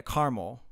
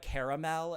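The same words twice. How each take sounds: First: "caramel" as CAR-mul, second a dropped; two-syllable caramel. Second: "Caramel" in three syllables, CARE-a-mel; Californian caramel. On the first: Shown as a demonstration. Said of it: "that only has two syllables". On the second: Retold or imitated. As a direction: sound the second a in "Caramel". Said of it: "moved to California and they're like".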